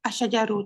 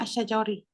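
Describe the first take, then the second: First: The word ends with an u vowel. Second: The word ends with an i vowel. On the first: The speaker calls it right. "Dia adalah rafa'" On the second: The speaker calls it wrong. "dia bukan asyajari"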